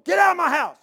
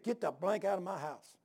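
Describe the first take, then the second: First: Much higher, much louder furious shout; angry yell. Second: Said in the usual way. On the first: Retold or imitated. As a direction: roar him out of the house. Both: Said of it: "He's yelling like that".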